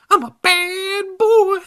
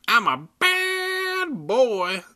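First: High, slow, loud baby-voiced dummy; shrill baby voice. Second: High, slow baby-voiced dummy; shrill baby voice. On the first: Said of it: "the dummy said". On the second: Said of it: "the dummy said in a shrill baby voice". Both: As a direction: squeal it out like a bratty baby doll.

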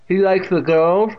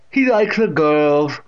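First: High, loud teasing question from a deaf aunt; Catherine. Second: Slow, loud leering statement; Catherine. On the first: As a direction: tease him as the deaf great-aunt, pitched up. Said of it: "with that distinct pronunciation". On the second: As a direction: leer at him as the deaf great-aunt. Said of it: "leering at him". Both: A narrator's reading.

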